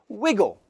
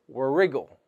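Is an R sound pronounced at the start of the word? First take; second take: no; yes. First: The word begins with a W sound. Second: The word begins with an R sound. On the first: The speaker calls it right. "Cross it out and just say wiggle" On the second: The speaker calls it wrong. "We don't pronounce the R. We don't say wriggle"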